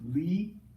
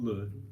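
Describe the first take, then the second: First: The vowel is a clear 'ee' sound. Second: The vowel is a short 'uh' sound. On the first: The speaker calls it right. "it's Lee" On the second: The speaker calls it wrong. "not le"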